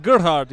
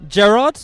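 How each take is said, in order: First: "Gerhard" with a hard Afrikaans-style G and a sounded H; "Gerhard" said the South African way, falling; South African pronunciation. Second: "Gerard" as a questioning English-style name; wrong pronunciation. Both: Shown as a demonstration. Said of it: "you need to say it with a South African accent".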